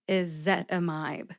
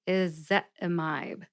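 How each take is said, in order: First: The last syllable has a long 'eye' vowel. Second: The same.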